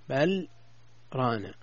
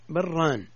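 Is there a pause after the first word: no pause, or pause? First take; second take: pause; no pause. First: There is a short pause after the first word. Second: The two words run together without a pause. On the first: The two words are heard as separate words. The speaker calls it right. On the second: It may sound like a dual of the word for piety. The speaker calls it wrong.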